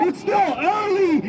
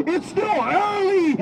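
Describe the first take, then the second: No difference in how they are said.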